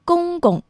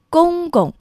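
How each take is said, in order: First: The second syllable is in the light neutral tone. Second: The same.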